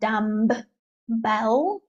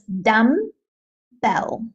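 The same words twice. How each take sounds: First: The b after 'dum' is clearly pronounced. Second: The b after 'dum' is not pronounced. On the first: The speaker calls it wrong. "It's not dumbbell" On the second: The speaker calls it right. "there's a silent B here"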